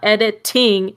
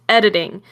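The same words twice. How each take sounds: First: The middle consonant is a crisp, hard T. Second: The middle consonant sounds soft, like a D. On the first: The speaker calls it wrong. "It's not editing" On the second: The speaker calls it right. "It's more of a D than a T"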